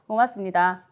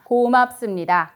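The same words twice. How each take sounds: First: The vowels are short and weakly articulated. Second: The vowels are long and forcefully articulated. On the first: The speaker calls it wrong. "모음을 짧게 혹은 힘을 안 주고 입 모양을 정확히 하지 않은 상태에서" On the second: The speaker calls it right. "모음에 힘을 주면서 얘기하는 거구나. 모음을 길게 얘기하는 거구나"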